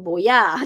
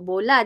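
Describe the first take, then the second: First: The middle consonant is a y sound. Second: The middle consonant is an l sound. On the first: A young child is mispronouncing the word. The speaker calls it wrong. "dia sebut boya" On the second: An adult is modelling the word. The speaker calls it right. "kita sebut bola"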